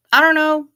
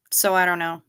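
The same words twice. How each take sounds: First: I don't know, pitched up and loud; high, loud exasperated. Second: Said in the usual way. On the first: Shown as a demonstration. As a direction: throw up your hands, louder and higher.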